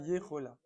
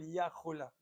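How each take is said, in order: First: The first vowel is an e sound. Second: The first vowel is an a sound. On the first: The speaker calls it right. "Donc, c'est Yechola" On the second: The speaker calls it wrong. "On peut pas dire Yachol, Yachola"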